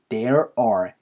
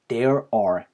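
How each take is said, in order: No difference in how they are said.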